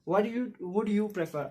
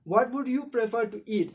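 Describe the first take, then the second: First: Very slow repeat; slow reading. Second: Slow dictation pace; slow reading. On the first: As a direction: repeat slowly for the class. (बहुत धीरे दोहराना) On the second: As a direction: read it out slowly to the class. (धीरे पढ़ाते हुए) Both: Shown as a demonstration. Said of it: "आप देखो".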